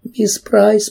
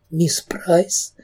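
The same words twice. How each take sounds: First: Выше и громче, сквозь рыдание; отчаянный всхлип навзрыд; всхлипывая громче. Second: Тихий всхлип, голос срывается; мягко, сквозь слёзы; всхлипывая. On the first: (громче, навзрыд) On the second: (тихо всхлипывая) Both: A narrator's reading. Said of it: "продолжала всхлипывать Кэрри".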